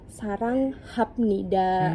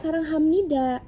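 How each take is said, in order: First: It is said following its written spelling. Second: It is said in its actual spoken form. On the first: The speaker calls it wrong. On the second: The speaker calls it right. "ternyata dibacanya"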